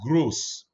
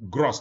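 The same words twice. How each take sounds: First: The vowel does not rhyme with cross. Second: The vowel rhymes with cross. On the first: The speaker calls it right. "I say gross" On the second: The speaker calls it wrong. "not gross like cross"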